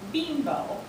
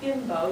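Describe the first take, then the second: First: The first vowel is a long 'ee' sound. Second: The first vowel is a short 'i' sound. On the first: The speaker calls it right. "It is Beembo. B E E M B O" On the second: The speaker calls it wrong. "not bimbo"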